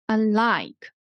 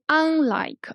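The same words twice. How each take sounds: First: The stress is on the second syllable. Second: The stress is on the first syllable. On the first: The speaker calls it right. "prefix usually is unstressed" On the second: The speaker calls it wrong. "we didn't say unlike"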